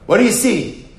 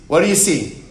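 First: Pitched higher and louder, pressing the class; final insistent take, demanding an answer; emphatic question. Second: Said in the usual way. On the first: Shown as a demonstration. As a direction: push the question home to the room. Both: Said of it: "repeated question building up".

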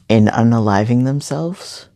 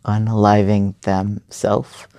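First: Unaliving themselves, ending in plural selves; saying themselves with a final selves sound; first wording. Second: Themselves corrected to themself, ending in singular self; self-correction. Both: Shown as a demonstration.

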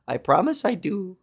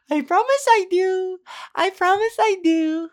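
First: Said in the usual way. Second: Put-on high, cooing baby talk for a pet; talking to a dog. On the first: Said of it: "Why did I say that like I was talking to a dog". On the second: Repeating the promise as if to a pet dog, high cooing baby talk. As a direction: coo it like praising a puppy. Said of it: "like I was talking to a dog".

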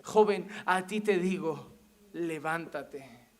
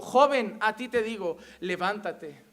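First: Jesus commanding slowly. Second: Firm command, falling in pitch at the end; Jesus commanding. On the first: Jesus repeats His order to the dead youth, slow solemn command. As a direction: draw out each phrase, dropping low and hushed. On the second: Jesus orders the dead youth to rise, firm command. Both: Acted. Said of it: "Y Jesús dijo".

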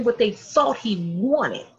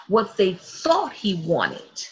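First: Said in the usual way. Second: "thought" drawn out, the whole phrase slow; slow, weighted repeat leaning on "thought"; repeated for emphasis. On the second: Real, not acted. Preacher repeats a key point to her listeners, slow stress on "thought". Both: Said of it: "I'm gonna say that again".

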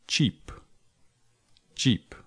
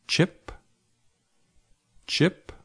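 First: "cheap" with a long, tense ee. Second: "chip" with a short, lax i. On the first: Teacher offering quiz choices, long ee in cheap. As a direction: say cheap with ee, not short i. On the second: Teacher offering quiz choices, short i in chip. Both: Shown as a demonstration. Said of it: "words that sound very similar".

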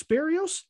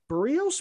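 First: Barrios? said as "bare-ee-os" with an open "bare", high questioning rise; trying out Barrios. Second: Barrios said as "ber-ee-os", the first vowel an r-coloured "er", asking; trying out Barrios. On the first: Host testing a second way to say the name, "bare-ee-os". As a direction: tries Barrios again as "bare-ee-os", pitched up. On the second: Host unsure of the pitcher's name, testing "ber-ee-os". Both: Shown as a demonstration. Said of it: "Is it Barrios?".

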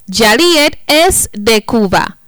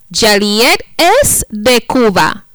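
Both takes have the same delivery.

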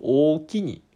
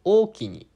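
First: おおきに said high and loud, the first try at the Kansai thanks; first attempt at おおきに, voiced a bit higher; Kansai ookini. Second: おおきにっ pushed much higher and louder, with a sharp clipped end; stronger ookini. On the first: Host trying out a Kansai word he rarely says, raised pitch. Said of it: "実生活で言わない". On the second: Host retrying the Kansai thanks with stronger accent. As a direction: punch おおきにっ hard, accent forced strong. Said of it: "アクセントっていうか強くつけられてないな". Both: Shown as a demonstration.

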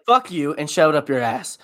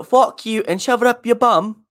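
First: Said in the usual way. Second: High mock-English insult; English accent. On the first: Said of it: "whereas ass is American". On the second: Shown as a demonstration. Comparing bum with ass, high mock-English accent. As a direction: put on English indignation, pitched up. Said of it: "English thing to say".

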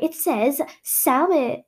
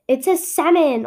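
First: "salmon" slowly, with an audible L; L sounded in salmon. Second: "salmon" as "sammon", no L; silent-L salmon. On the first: Son misquoting his dictionary, "salmon" with a clear L. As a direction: draw out "salmon" as "sal-mon". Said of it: "it was salmon, not salmon". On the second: Son correcting his mother, "salmon" as "sammon". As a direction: leave the L out of "salmon". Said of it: "he told his mother that it was salmon". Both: Retold or imitated.

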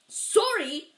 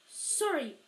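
First: Loud, high bark of disbelief. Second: Higher-pitched, quick apology; a quick sorry, pitched up. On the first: Giant throwing the boy's apology back at him, barked. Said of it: "barked Hagrid". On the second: Harry apologising to the shocked giant, said quickly. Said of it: "Harry said quickly". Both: A narrator's reading.

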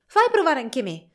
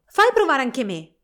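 First: Esclamazione più alta e più forte, di nuovo con foga. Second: Più alto e più forte, Fritz esclama eccitato; esclamazione. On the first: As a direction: reclama il giocattolo con impeto. (Fritz vuole provare lo schiaccianoci, esclama forte) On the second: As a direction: pretendi il giocattolo con foga. (Fritz strappa lo schiaccianoci alla sorella, esclamando forte) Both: A narrator's reading. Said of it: "esclamò Fritz".

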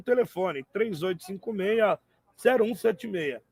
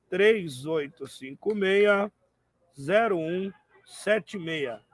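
First: Said in the usual way. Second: Slow, careful digits; slow number read. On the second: Shown as a demonstration. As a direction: spell the number out slowly so they can write it down. Repeats phone number slowly. (número dito devagar)

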